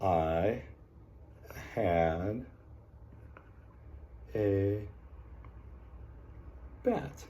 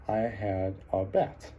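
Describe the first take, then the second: First: "I had a bat" with long pauses between words, last word up and soft; dictating word by word. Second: "I had a bat" read slowly as one phrase; slow read-back. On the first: Teacher to class, slow word-by-word dictation. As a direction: spell it out one word at a time. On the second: Teacher to class, reading the sentence back slowly. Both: Shown as a demonstration. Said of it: "came up with the sentence".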